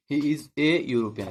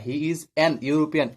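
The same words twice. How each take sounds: First: "a European" said slowly as the right form; correct version. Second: "an European" said as the wrong form; wrong version. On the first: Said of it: "হবে কি he is a European". (সঠিক উচ্চারণ "a European") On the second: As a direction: demo the mistake with "an European". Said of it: "এভাবে হবে না". (ভুল উচ্চারণ "an European") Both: Shown as a demonstration.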